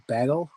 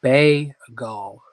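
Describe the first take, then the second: First: Said in the usual way. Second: Bagel stretched into two beats, "BAY-gol", first beat loud; sounding out bagel. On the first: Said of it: "Am I saying it funny?". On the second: Real, not acted. Host checking their own word for viewers, bagel sounded out slowly. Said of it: "making me sound out words".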